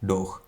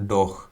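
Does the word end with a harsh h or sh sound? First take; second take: harsh h; harsh h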